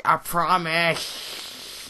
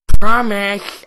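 First: Very slow, stretched promise; drawn out. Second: Loud emphatic promise; loud exclamation. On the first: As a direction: drag out every word. Vows again, drawn out. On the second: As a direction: belt out the promise. Vows to restore game setting. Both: Real, not acted.

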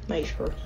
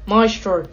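First: MAY-stro; Maestro with long A. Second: MY-stro; Maestro with eye sound. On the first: Gamer testing how to say the name, MAY-stro. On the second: Gamer testing how to say the name, MY-stro. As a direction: say "Maestro" as MY-stroh. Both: Shown as a demonstration. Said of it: "I always used to think it was Maestro".

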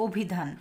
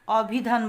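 First: অভিধান said as 'o-bhi-dhan'; rounded 'o' opening অভিধান; closed o vowel. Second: অভিধান said as 'aw-bhi-dhan'; wrong open vowel. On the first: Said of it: "আমরা কিন্তু বলি". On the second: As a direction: open 'aw' opening অভিধান, punched. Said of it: "অভিধান বলি না". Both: Shown as a demonstration.

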